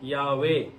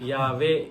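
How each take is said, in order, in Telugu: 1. మధ్య శబ్దానికి పెదవులు గుండ్రంగా ఉంటాయి. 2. మధ్య శబ్దానికి పళ్ళు కింది పెదవిని తాకుతాయి. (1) "ఇది నోరు వచ్చేసి రౌండ్కి రావాలి" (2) "ఈ పళ్ళు పెదాన్ని కొరకకూడదు. యావే అనకూడదు"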